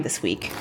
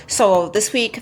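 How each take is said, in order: First: This week whispered under the breath; whispered aside. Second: Said in the usual way. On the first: Real, not acted. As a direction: drop it to a quick whisper to yourself. Self-correction muttered under breath.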